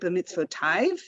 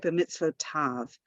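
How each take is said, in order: First: The word ends with the sound 'aiv'. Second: The word ends with the sound 'av'. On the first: The speaker calls it wrong. "We don't say b'mitzvotav in our blessings" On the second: The speaker calls it right. "We say b'mitzvotav"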